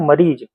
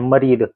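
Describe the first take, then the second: First: The word ends with a 'z' sound. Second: The word ends with a 'd' sound. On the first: This is how we say it. "हम लोग ज लगाते हैं" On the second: This is how they say it. "ये लोग द लगाते हैं"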